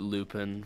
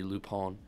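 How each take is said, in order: First: The name has an English-style pronunciation. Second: The name has a French-style pronunciation. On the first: The speaker calls it wrong. "I used to pronounce it Lupin for a while" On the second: The speaker calls it right. "it's actually Lupin. ... it's a French name"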